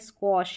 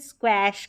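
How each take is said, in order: First: The vowel sounds like the o in hot. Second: The vowel sounds like the a in cat. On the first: "स्क्वॉश ऐसे पढ़ेंगे" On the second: "इसको क्वैश करके नहीं पढ़ सकते"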